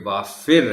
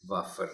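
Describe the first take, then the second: First: The vowel after f is a short i. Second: The vowel after f is a short a. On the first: The speaker calls it right. "सो ये वाफिर है" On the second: The speaker calls it wrong. "वाफर नहीं"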